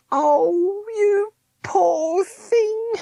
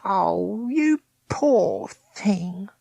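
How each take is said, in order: First: Very high, slow, sobbing woman; crying pity. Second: Higher, slow, drawn-out pity; pitying Meg. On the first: Meg weeps for Smith, very high and slow. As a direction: wail it out, near tears. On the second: Meg pities condemned Smith, high and slow. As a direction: stretch it out, higher, full of pity. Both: A narrator's reading.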